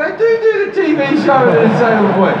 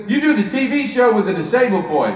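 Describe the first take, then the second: First: Higher, louder, rushed eager reply; starstruck excitement. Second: Lightly voiced celebrity statement; a hint of Eddie Murphy, falling off at the end; Eddie Murphy impression. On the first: Retold or imitated. Comedian replies to his childhood hero, starstruck and rushed. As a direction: blurt it out like a thrilled fan. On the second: Comedian retells Eddie Murphy naming his show, light impression. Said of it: "I'm gonna do a terrible impersonation".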